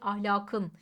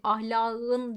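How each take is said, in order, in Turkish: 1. Kökün son ünsüzü sert bir k olarak kalıyor. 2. Kökün son ünsüzü ğ'ye yumuşamış. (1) "buralarda ünsüz yumuşaması yoktur" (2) "değil"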